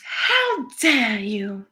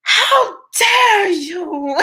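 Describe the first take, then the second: First: Put-on very slow, drawn-out Greta Thunberg accent; deliberate mock scolding, Greta Thunberg accent. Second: Put-on crazier, high, very slow Greta Thunberg accent; wildly hammed-up high Greta Thunberg accent. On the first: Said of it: "Did I get the accent right". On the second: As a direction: go over the top with a Greta Thunberg accent, then crack up. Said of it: "I got a little crazier with it".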